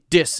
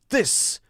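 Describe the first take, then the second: First: The first sound is a full D. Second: The first sound is pushed hard, almost a D. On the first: "It's actually a D sound" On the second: "it's also too hard. It's being pushed too much"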